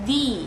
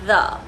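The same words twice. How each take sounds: First: The word ends in a long 'ee' vowel. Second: The word ends in a short 'uh' vowel. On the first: "যখন এই শব্দটিকে আমরা vowel সাউন্ডের সামনে place করি it's going to sound as the" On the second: "যখন এটা আমরা একটা কনসোনেন্ট সাউন্ডের সামনে প্লেস করি we have to pronounce it as the"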